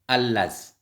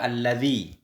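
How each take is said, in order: First: The word ends on a consonant, no vowel. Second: The word ends in a short i vowel. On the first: "Kemudian allaz. Nah, sukun" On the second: "Yang kedua alladzi buang ya"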